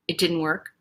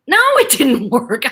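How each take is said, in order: First: Low, soft mock letdown; deflated father. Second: Higher, louder, drawn-out confirmation; slow, gleefully emphatic no; emphatic daughter. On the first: Daughter mimicking dad whose tantrum failed, subdued. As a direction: imitate a crestfallen, subdued dad. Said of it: "think of my dad going". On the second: Retold or imitated. Daughter confirming to dad his tantrum failed, emphatic. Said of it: "I'm, like, looking at him".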